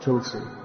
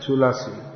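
First: The word has two syllables, dropping the middle vowel. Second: The word has three syllables, keeping the middle vowel. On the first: This is the shortened form. The speaker calls it wrong. "not Tulsi" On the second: This is the Tamil form. The speaker calls it right. "In Tamil, it's Tulasi"

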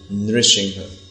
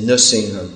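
First: The first syllable is pronounced 'nri'. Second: The first syllable is not pronounced 'nri'. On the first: The speaker calls it right. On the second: The speaker calls it wrong. "sometimes they say Nrsingham"

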